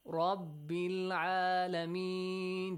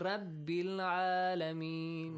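First: The R is pronounced heavy and full. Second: The R is pronounced light and thin. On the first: The speaker calls it right. "So it produces a heavy sound" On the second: The speaker calls it wrong. "Do not say"

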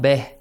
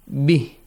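First: The vowel is an open 'eh' sound. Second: The vowel is a close 'ee' sound. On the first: The speaker calls it wrong. "You were reciting beh. It's not beh" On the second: The speaker calls it right. "E sound. Not A sound"

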